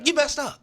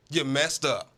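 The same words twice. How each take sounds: First: High mocking jab. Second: Said in the usual way. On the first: Shown as a demonstration.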